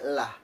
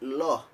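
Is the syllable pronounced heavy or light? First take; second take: light; heavy. First: The syllable has a thin, light, open sound. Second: The syllable has a thick, dark, rounded sound. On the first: "dibaca tifis atau lam tarqiq" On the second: "dibaca tafkhim atau tebal"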